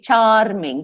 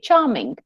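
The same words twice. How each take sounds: First: The R sound is pronounced after the vowel. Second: The R sound is silent after the vowel. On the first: The speaker calls it wrong. "we don't say charming" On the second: The speaker calls it right. "the R is there, but we don't say it"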